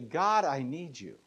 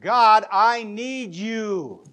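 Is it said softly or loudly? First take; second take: softly; loudly. First: It is said softly and politely. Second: It is said loudly and urgently.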